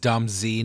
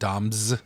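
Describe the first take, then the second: First: The Z is said as a separate letter name. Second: The Z is blended into one syllable as s. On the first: The speaker calls it right. "It is Dom Z" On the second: The speaker calls it wrong. "not Doms"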